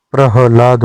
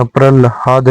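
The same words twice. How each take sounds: First: प्रह्लाद with ह before ल; correct form. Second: प्रल्हाद with ल before ह; wrong form. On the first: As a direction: say प्रह्लाद, putting ह first. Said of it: "प्रह्लाद होता है". (सही उच्चारण प्रह्लाद, ह पहले) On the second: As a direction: say प्रल्हाद, putting ल first. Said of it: "प्रल्हाद नहीं होता है". (गलत उच्चारण प्रल्हाद, ल पहले) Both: Shown as a demonstration.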